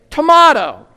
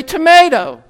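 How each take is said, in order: First: Tomato as to-MAH-toh with a crisp t; tomato with a long ah and clear t; South African tomato. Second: Tomato with a flapped American t. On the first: Retold or imitated. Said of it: "they say tomato". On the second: Shown as a demonstration. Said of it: "I say tomato".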